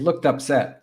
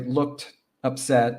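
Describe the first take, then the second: First: The two words run together without a pause. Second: There is a pause between the two words. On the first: The speaker calls it right. "We say looked upset. So it sounds like um, words all pushed together" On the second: The speaker calls it wrong. "we don't pause and say looked upset"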